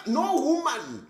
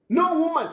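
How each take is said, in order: First: Drawn-out, slow "No woman"; slow and deliberate. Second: "No woman" louder and higher, hit NO; emphatic shout. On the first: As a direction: say "No woman" slowly, stretching each word. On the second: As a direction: punch "No woman" hard. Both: Shown as a demonstration.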